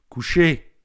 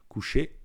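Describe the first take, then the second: First: The command is said in a harsh, stern way. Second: The command is said in a calm, neutral way.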